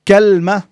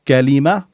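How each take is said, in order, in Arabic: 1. لا تتبع اللام أي حركة. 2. تتبع اللام حركة قصيرة. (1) "بفتح الكاف وسكون اللام على وزن تمرة" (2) "وهي الكلمة الدارجة الشائعة"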